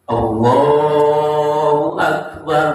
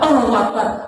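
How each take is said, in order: First: It is said calmly and solemnly, like a prayer. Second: It is said abruptly, like a startled exclamation. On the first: It opens a prayer. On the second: It expresses sudden surprise. "kaget berarti"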